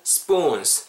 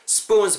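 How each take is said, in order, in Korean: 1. 이 단어는 길고, p는 긴장된 소리로 발음합니다. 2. 이 단어는 짧고, p는 평음으로 발음합니다. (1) "약간 쌍비읍으로 발음하시고 spoons 길게 발음해주시면" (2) "spoons라고 하시기보다는"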